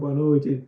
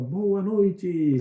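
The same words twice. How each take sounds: First: It is said quietly with low energy. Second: It is said loudly with high energy.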